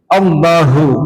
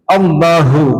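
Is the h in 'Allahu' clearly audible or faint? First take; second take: audible; audible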